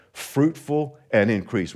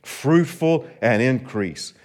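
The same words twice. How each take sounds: First: Said in the usual way. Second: Slow and deliberate, fruitful leaned on; slow, drawn-out call. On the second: Shown as a demonstration. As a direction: say it slow so they echo it. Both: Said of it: "Would you say that with me".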